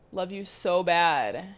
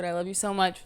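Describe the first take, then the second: First: Slow, stretched playful love you; slowly hamming up the goodbye; drawn out. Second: Said in the usual way. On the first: Real, not acted. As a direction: linger on every word. Drawn-out repeat of sign-off.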